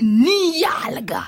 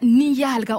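First: The word is said with strong, scornful feeling. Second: The word is said flatly, without expression. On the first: The speaker calls it right. "on dit niyalga. Avec tout ce qui va avec" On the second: The speaker calls it wrong. "on ne dit pas niyalga"

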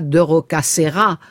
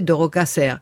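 First: The final vowel of the name is pronounced. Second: The final vowel of the name is dropped. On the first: The speaker calls it wrong. "on disait pas de Rocasserra" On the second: The speaker calls it right. "on disait de Rocasserre. ... on mange la fin des mots"

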